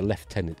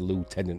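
First: It uses the traditional British pronunciation. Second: It uses the newer, non-traditional pronunciation. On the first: It sounds deliberately British and old-fashioned. "I was saying in the UK" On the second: It is what most people now say. "most British people now say Lieutenant"

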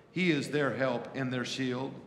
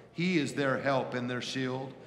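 Both takes have the same delivery.

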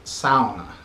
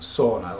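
First: The word is said the Finnish way. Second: The word is said the anglicized way. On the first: This is how the people who invented it say it. The speaker calls it right. "always remember to pronounce it sauna" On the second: This is how it was learned growing up. The speaker calls it wrong. "and not sauna, like I grew up thinking it was"

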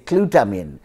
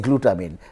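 First: It begins with a sound like the letter Q. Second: It begins with a clear 'gloo' sound. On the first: "some people in the English world, they say glutamine" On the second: "they don't say glutamine"

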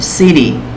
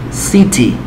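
First: The middle t is soft, like a quick d. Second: The middle t is a clear t sound. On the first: "Así pronuncian ciudad en inglés americano" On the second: "Pero en el británico sí ponen, o como se lee"

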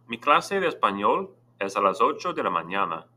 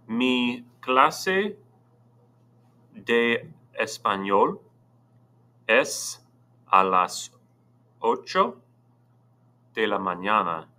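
First: It is read at normal speed. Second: It is read slowly.

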